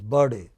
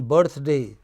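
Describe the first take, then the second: First: The th sound is left out. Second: The th sound is pronounced.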